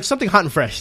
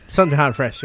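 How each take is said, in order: First: Said in the usual way. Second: Repeated through a laugh. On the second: Retold or imitated. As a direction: say it again, giggling. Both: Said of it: "It's like".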